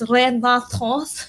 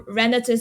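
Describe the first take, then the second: First: The name is said with a French pronunciation. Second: The name is said with an English pronunciation. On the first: "it's French apparently" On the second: "British English, guys, British English"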